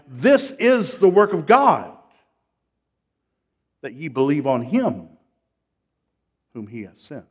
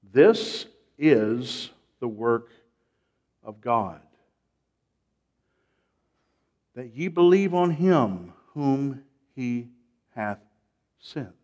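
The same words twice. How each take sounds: First: Strong raised opening, falling away at the end; preacher declaring scripture at normal speed; forceful scripture reading. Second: Slow, deliberate scripture reading with long pauses. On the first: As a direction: proclaim the verse loudly, then let it settle. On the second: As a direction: read it phrase by phrase, letting each sink in. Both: Shown as a demonstration. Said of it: "Let's read it slowly".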